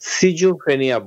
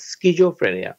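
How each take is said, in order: First: The word begins with a plain 's' sound. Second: The word begins with an 'sk' sound. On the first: "British উচ্চারণে সিজোফ্রেনিয়া বলে" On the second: "আমরা যেভাবে স্কুল বলি এস সি এইচ স্কুল সেই একই উচ্চারণে"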